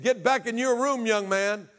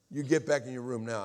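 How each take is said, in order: First: High, loud imitation of a stern stepfather; retold angry order. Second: Firm but unshouted command, lightly acted; reined-in imitation of a stern stepfather; retold controlled order. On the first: Stepfather orders boy to his room, acted angry shout. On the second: Stepfather repeats order to boy, mildly stern.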